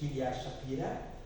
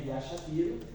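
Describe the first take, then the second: First: The surname ends with an 'a' vowel sound. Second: The surname ends with an 'o' vowel sound. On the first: This is how Russians say the name. "como dizem os russos" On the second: This is how it is said in Portuguese. "em português a letra Shapiro"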